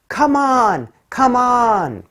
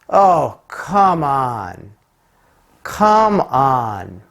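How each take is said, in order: First: It sounds like an encouraging cheer. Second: It sounds exasperated and disbelieving.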